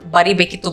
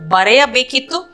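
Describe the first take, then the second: First: The word is said with a shortened 'ri' syllable. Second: The word is said with the full 'reya' syllables. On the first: This form is used more in everyday speech. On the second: This is the fuller, more formal form.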